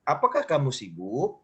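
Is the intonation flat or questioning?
questioning. It is said with a questioning intonation. The speaker calls it right. "Harus menanyakan"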